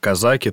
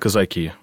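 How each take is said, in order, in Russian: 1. Ударение падает на предпоследний слог. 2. Ударение падает на последний слог. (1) "если вы скажете слово «казаки», то у вас обязательно представители казачества поправят" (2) "Только последний слог"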